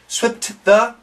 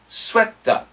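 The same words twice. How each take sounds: First: The T of swept is pronounced separately. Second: The T is dropped, linking into the TH. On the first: The speaker calls it wrong. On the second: The speaker calls it right. "we connect, only keep the T H sound"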